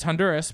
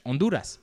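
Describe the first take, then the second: First: Said in the usual way. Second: Honduras with a silent H and Spanish vowels; Spanish pronunciation. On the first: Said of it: "it's Honduras, but then". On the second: Shown as a demonstration. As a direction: say Honduras the Spanish way, "on-DOO-rahs".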